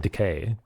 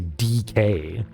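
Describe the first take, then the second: First: The first vowel is a weak schwa sound. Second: It sounds like the letter names D and K. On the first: The speaker calls it right. "You say decay. It's a schwa" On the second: The speaker calls it wrong. "unless you say D K"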